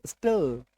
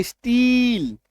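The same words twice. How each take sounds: First: स्टिल with a short clipped i, dropped low and soft; short i in still. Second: स्टील drawn out slowly with a long ee vowel; long ee in steel. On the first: Teacher giving students the short-i still after steel. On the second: Teacher contrasting steel with still for students, slow long ee. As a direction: stretch the ee in स्टील, slow and clear. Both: Shown as a demonstration. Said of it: "इसका उच्चारण देखिएगा, बदलेगा".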